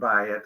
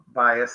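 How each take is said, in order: First: It is said without the Ashkenazi s, ending in t. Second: It is said in an Ashkenazi way, ending in s.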